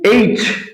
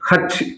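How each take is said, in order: First: It begins with a vowel, no h sound. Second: It begins with an h sound. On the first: The speaker calls it right. "கரெக்டான pronunciation" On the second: The speaker calls it wrong. "இது தப்பு. ஹச்னா தப்பு"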